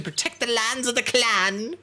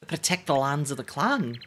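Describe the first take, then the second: First: Mock-heroic battle cry, pitched up; clan defender vibe. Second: Said in the usual way. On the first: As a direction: declaim it like a clan warrior. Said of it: "They have the vibe to".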